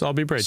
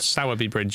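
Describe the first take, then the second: First: The name is said the local way. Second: The name is said as it is spelled. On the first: This is how the locals say it. "The locals would have you pronounce it?" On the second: This is how it looks written down. "how it looks to be written down"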